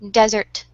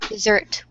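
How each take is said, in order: First: The stress is on the first syllable. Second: The stress is on the second syllable. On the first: A dry, sandy land. "the stress is in the first syllable" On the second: A sweet dish after a meal. "dessert is the sec in the second syllable"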